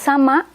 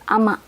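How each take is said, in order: First: The word starts with a clear S sound. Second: The word starts without the S sound.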